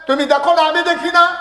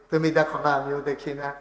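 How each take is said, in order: First: High, loud preacher's cry; full-force preaching. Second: Said in the usual way. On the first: Real, not acted. Preacher to listeners about the unseen dead, high loud cry. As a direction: cry it out over the crowd.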